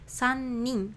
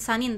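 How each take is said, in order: First: The n sound is lengthened and stressed. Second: The n sound is short and unstressed. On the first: The speaker calls it right. "lebih ke dipanjangkan dan lebih ditekankan" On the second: The speaker calls it wrong. "bukan sanin"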